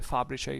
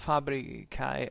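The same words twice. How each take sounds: First: It is said in ecclesiastical Latin pronunciation. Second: It is said in classical Latin pronunciation. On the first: "if you prefer an ecclesiastical pronunciation" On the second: "we can call it this way"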